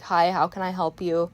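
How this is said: The voice is flat and monotone. The speaker is having a bad day. "I was kind of a little more monotone. Like I was I was speaking like this"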